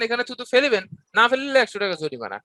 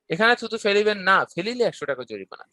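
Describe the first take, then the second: First: The pause comes before the word না. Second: The pause comes after the word না.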